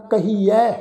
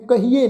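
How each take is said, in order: First: ਕਹੀਐ ending in an open "ai" vowel; correct recited pronunciation. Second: ਕਹੀਏ ending in a close "ay" vowel; wrong pronunciation. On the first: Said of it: "ਇਸ ਦਾ ਪਾਠ ਉਚਾਰਨ ਕਰਾਂ". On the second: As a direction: say ਕਹੀਏ as ka-hee-ay, the mistaken reading. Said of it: "ਨਹੀਂ ਪੜ੍ਹਨਾ". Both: Shown as a demonstration.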